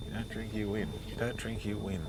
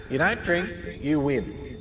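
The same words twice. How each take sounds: First: Much softer repeats dying away; quiet haunting refrain; fading echo. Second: The voice comes back insistently; haunting refrain; echoing memory. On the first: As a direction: let the refrain recede in the head. Memory voice fading. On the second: Memory voice repeats. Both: Retold or imitated.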